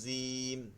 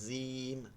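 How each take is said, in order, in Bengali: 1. "j" উচ্চারণে জিব দাঁত ছোঁয়। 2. "j" উচ্চারণে জিব দাঁত ছোঁয়।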